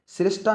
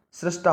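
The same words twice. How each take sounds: First: सृष्टा as slow "srish-ta"; i vowel in सृष्टा; wrong pronunciation. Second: सृष्टा said "srash-ta"; "ra" in place of "ri" in सृष्टा; correct pronunciation. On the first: Teacher shows students the wrong vowel, mispronounced. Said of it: "सृष्टा नहीं होगा". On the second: Teacher corrects it for students, careful pronunciation. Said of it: "रा आएगा, रा". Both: Shown as a demonstration.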